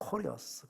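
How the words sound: It is said with an American pronunciation. "미국 발음으로 보면 코리어스"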